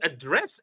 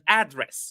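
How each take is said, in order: First: The stress is on the second syllable. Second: The stress is on the first syllable. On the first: It is used as a verb. "if it is a verb, the second syllable is high" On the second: It is used as a noun. "If it is a noun, ... The first syllable is high"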